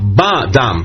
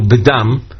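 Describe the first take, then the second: First: The first syllable has a full 'a' vowel. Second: The first syllable has a reduced vowel. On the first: It means the specific blood present from the first moment. The speaker calls it right. "במקום שווה, תחת הבית, יש פתח" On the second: It means some blood in general. The speaker calls it wrong. "ולא קרבינו בדם"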